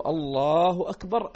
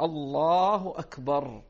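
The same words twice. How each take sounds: First: Slow, loud drawn-out الله أكبر; drawn-out takbir. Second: Slow drawn-out الله أكبر spanning the movement; drawn-out takbir. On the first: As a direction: stretch الله أكبر slowly and loudly. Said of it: "فيقول". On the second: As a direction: stretch الله أكبر across the rise. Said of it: "فلو قال". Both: Shown as a demonstration.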